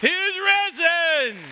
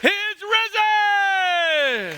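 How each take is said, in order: First: High, loud, drawn out; slow proclamation. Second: Even higher, louder and very slow; soaring proclamation. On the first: Pastor proclaiming to the church, slow and loud. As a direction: call it across the whole church. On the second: Pastor's climactic Easter cry, slow and soaring. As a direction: stretch risen to the rafters. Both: Acted. Calm down.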